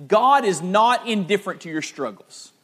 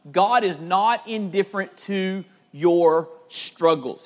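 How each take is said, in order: First: Said in the usual way. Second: Slow, deliberate preacher's emphasis; slow emphatic repeat. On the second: Real, not acted. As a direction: spell out the key point slowly, word by word. Key point repeated for emphasis.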